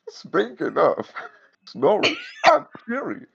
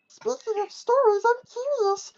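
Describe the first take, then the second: First: It sounds like an old woman's voice. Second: It sounds like Elmo's voice.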